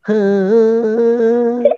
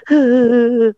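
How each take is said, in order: First: Long, high sustained fake wail; badly faked sing-song cry; cry that sounds sung. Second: Short mock wail; brief put-on sob; demonstrated cry. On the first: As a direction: fake crying on one held singing note. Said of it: "Itu mah nyanyi, bukan nangis". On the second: Shown as a demonstration. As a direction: show how to fake a cry. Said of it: "nangis begini".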